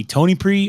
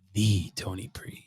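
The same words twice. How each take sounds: First: Said in the usual way. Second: Slow, low "the", set apart before the name; stress on THE. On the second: Shown as a demonstration. Asking chat to pick a brand name, weighty low "the". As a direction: draw out "the" grandly as "thee", softly. Offers grander version of the name.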